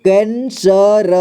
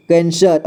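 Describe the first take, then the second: First: कैंसर very slowly as कैं, स, र; syllable by syllable. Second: Said in the usual way. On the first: Shown as a demonstration. Teacher showing learners कैंसर, slowly broken up. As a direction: sound out each part of कैंसर apart. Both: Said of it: "हम सभी मिला के".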